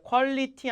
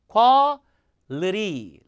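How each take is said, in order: First: The t is a hard, clear t sound. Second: The t is a soft flap, like an r. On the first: The speaker calls it wrong. "퀄리티 아니고" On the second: The speaker calls it right. "t 발음이 아니라 리 발음이죠"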